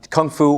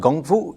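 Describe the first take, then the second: First: The first word begins with a hard K sound. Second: The first word begins with a softer G sound.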